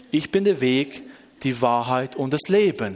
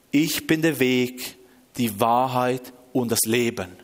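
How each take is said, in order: First: Said in the usual way. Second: Slow, measured divine pronouncement; voice from heaven. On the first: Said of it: "tut googlen". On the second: Retold or imitated. Audible voice answering the desperate man, slow divine pronouncement. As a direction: pronounce it solemnly, very slow, sinking lower. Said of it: "eine akustische Stimme, wirklich ganz laut".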